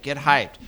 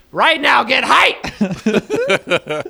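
First: Said in the usual way. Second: High, very loud mock command; over-the-top shouted hype; hype yell. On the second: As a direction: yell at them to get pumped. Yelling mock order to get excited.

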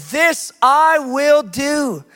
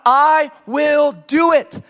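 First: "this I will do" drawn out very slowly, each word weighted; slow stress on this I will do. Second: "I will do it" stretched very slowly and louder, peak on "do"; slow stress on do it. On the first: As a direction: let every word of "this I will do" land heavily. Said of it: "This is where confidence comes from". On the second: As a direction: answer your own question by pressing hard on "do". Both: Shown as a demonstration.

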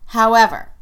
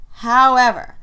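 No difference in how they are said.

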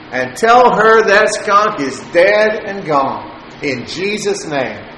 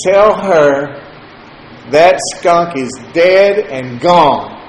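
First: Higher and slow, "dead and gone" driven home as a proclamation; insistent repeat. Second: Slow, louder, every word of "that skunk is dead and gone" weighted; firm declaration. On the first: Pressing the point on his stepdad a second time, higher and slow. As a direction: repeat it higher, like a preacher sealing it. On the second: Answering his stepdad's joke, slow and firm. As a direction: plant "dead and gone" slowly and firmly. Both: Retold or imitated. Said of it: "I heard you".

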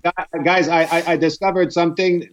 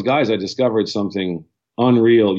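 First: Higher-pitched teasing imitation of a friend's accent; George Saint Pierre's accent. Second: Said in the usual way. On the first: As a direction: put on his accent, pitched up, stammering into the announcement. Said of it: "that was good accent".

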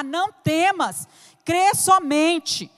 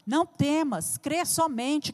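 First: "crê somente" drawn out slowly with weight on "crê"; emphatic refrain. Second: Soft refrain. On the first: Preacher presses the promise on the church, slow and firm. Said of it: "repeated refrain, building take". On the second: Preacher repeats the promise to the church, softly. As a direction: say "crê somente" softly, like a comfort. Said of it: "repeated refrain, quiet take". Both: Acted.

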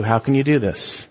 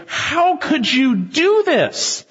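First: Gentle rebuke. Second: High, slow, stunned question; aghast sailors. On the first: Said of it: "Maybe God's saying to you". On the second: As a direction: drag it out in horror. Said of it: "And they say". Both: Retold or imitated.

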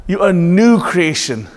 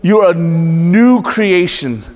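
First: Said in the usual way. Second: Louder. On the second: Shown as a demonstration.

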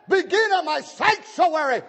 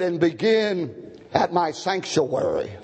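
First: High, ringing pulpit cry; high-pitched emphatic repeat of scripture; exclaimed preaching. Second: Said in the usual way. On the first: Real, not acted. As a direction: hurl the verse at the congregation.

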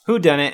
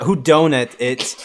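First: Said in the usual way. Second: Slow "Donut", said as doe-nut; punned pronunciation. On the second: Shown as a demonstration. Reading the list title aloud, "Donut" said slowly as doe-nut. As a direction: stretch "Donut" into the pastry word.

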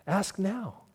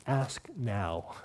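First: Laughing repeat. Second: Much softer and lower; a gentle, intimate plea; soft invitation. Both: Acted.

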